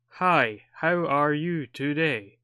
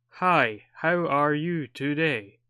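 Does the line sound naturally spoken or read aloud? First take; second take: read aloud; read aloud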